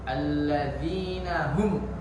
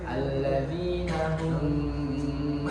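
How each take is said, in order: First: The final m is cut off hard. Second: The final m hums for a long time. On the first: "tidak dibaca ... ditegaskan ya" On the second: "itu baru yang salah ... gunnah terlalu panjang"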